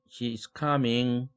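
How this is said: The pitch stays level at the end. More speech is to follow. "하고 계속하는 거죠"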